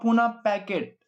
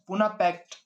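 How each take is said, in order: First: The second word has two syllables, like packet. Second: The second word has one syllable, like pact. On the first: "पैकेट बोल रहा हूं मैं" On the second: "Poona पैक्ट बोलते हो जिसको आप"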